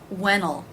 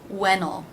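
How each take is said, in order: The two takes are said the same way.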